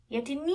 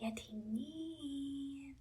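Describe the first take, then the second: First: Raised call, far from hushed; loud voice. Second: Very soft, long-drawn call; quiet voice. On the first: Princess calls by the sleeping dragon's ear, loudly. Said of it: "وقالت بصوت عالي". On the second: Princess tests if the dragon sleeps, calling quietly. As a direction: softly stretch out the name. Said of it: "الأميرة هنا قالت بصوت هادي". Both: A narrator's reading.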